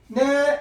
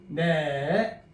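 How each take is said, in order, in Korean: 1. 음높이가 높고 평평해요. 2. 음이 내려갔다가 살짝 올라가요. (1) "전화 받을 때만 생각하세요" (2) "끄트머리 약간 쳐줘야 돼요. 낚시 모양을 생각하세요"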